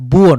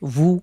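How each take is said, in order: First: It starts with a clear b sound. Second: It starts with a sound between b and v. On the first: The speaker calls it wrong. "আবার বুও নয়" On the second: The speaker calls it right. "মাঝামাঝি একটা ওয়াও পেশ ভু"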